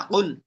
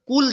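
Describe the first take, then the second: First: "কুল" with a deep back-throat q; deep qaf. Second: "কুল" with a plain front k; wrong k sound. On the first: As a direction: say "কুল" from the root of the tongue. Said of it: "দুই নক্তাওয়ালা কফ". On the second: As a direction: say "কুল" with a light English k. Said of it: "কুল যেন না হয়". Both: Shown as a demonstration.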